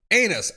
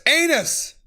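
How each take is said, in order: First: Said in the usual way. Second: Excited outburst. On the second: Real, not acted. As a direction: blurt out Anus with glee. Reading funny text aloud.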